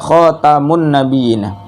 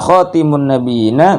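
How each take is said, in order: First: The second syllable has the vowel 'a'. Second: The second syllable has the vowel 'i'. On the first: "dibaca fathah huruf taknya" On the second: "dibaca kasroh"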